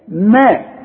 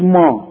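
First: The syllable is pronounced light and thin. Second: The syllable is pronounced heavy and full. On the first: The speaker calls it right. "المين في القرآن يا راجل ما" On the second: The speaker calls it wrong. "مش ما"

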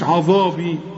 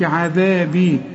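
First: The dh sound is heavy and emphatic. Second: The dh sound is light and thin. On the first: The speaker calls it wrong. "ما قلتش عذابي" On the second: The speaker calls it right. "كلها حروف مرققة، قلت عذابي"

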